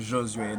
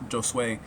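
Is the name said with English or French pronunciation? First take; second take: French; English. First: The name is said with a French pronunciation. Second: The name is said with an English-style pronunciation. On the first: "That is the French pronunciation of my name" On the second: "you could pronounce it Jos Josue if you cannot do that"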